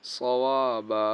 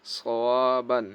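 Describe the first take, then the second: First: সওয়াবা ending on a long held open aa; slow recited সওয়াবা, final aa prolonged; waqf stop with stretch. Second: সওয়াবান recited with its closing n sounded; drawn-out recitation, সওয়াবান closed with n; without a pause-stop. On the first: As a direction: drop the n, stretch the last vowel of সওয়াবা. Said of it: "আর এক আলিফ টান হয়". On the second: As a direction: end সওয়াবান on a clear nasal n. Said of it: "ওয়াকফ করলে". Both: Shown as a demonstration.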